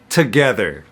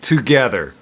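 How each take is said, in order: First: The first vowel is a short 'uh' sound. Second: The first vowel is a full 'oo' sound. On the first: "when we say it quickly, that O becomes a schwa sound" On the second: "in its full form, that's one thing. That's an ooh sound"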